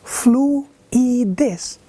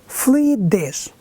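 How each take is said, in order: First: Fluidez in three separate beats, flu-i-dez; divided into syllables. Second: Fluidez slowly in two beats, flui-dez; divided into syllables. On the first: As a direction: break the vowels of fluidez apart: flu, i, dez. (fluidez em três sílabas, flu-i-dez) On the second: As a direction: keep flui together in fluidez, then dez. (fluidez em duas sílabas, flui-dez) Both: Shown as a demonstration. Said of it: "Divide-se".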